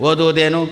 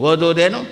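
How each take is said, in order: Both takes have the same delivery.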